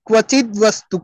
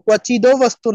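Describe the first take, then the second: First: The first word ends in a bare consonant. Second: The first word ends with an added vowel. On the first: The speaker calls it right. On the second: The speaker calls it wrong.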